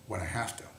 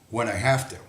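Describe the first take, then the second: First: A hushed knowing repeat; whispered repeat. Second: Said in the usual way. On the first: Shown as a demonstration. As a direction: whisper the aside.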